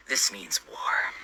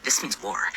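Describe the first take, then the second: First: Slow, hushed whisper of vengeance; grim whisper. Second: Said in the usual way. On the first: Acted. Sitting over a ketchupless hot dog, vowing revenge in a slow grim whisper. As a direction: breathe it slowly like a vow of war.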